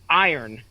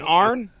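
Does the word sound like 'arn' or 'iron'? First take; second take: iron; arn. First: The word is said like 'iron'. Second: The word is said like 'arn'. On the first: "which I don't know if I'm pronouncing that right right now" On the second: "I used to say it"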